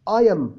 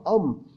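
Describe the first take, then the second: First: It is said as two separate syllables. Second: It is said as one short syllable. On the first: The speaker calls it wrong. "ما بيقوش اي ام" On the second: The speaker calls it right. "لا بيقولوها ام"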